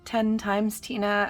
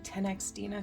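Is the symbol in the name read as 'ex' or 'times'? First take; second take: times; ex. First: The symbol is read as the word 'times'. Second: The symbol is read as the letter 'ex'. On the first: "I had somebody telling me it was ten times Tina" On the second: "I've always said ten x Tina"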